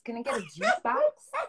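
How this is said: It is said in a Southern accent.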